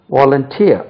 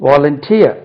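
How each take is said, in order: Both takes have the same delivery.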